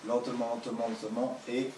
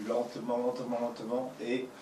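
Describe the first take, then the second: No difference in how they are said.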